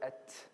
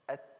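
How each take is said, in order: First: The final t ends with a strong hiss. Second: The final t ends with a slight hiss. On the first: The speaker calls it wrong. "I don't say at. That's too much" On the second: The speaker calls it right. "There has to be a very small hiss"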